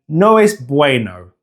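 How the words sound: It is said with an English accent.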